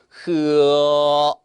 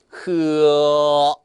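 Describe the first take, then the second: No difference in how they are said.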